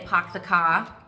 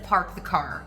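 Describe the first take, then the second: First: The R sounds after vowels are dropped. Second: The R sounds after vowels are pronounced. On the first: "speakers of Boston English, where they would might say" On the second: "instead of"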